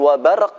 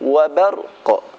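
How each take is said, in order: First: The final q stops flat with no echo. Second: The final q ends with a bouncing echo. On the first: The speaker calls it wrong. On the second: The speaker calls it right.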